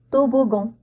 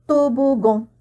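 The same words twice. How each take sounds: The two takes are said the same way.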